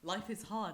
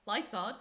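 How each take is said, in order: First: Said in the usual way. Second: Louder, run-together Scouse "life's hard"; imitated Scouse. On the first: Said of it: "And he was just like". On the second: Scouse girl saying it to a baffled friend, imitated Scouse accent. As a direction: mimic a strong Scouse accent. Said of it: "it's really strong sometimes".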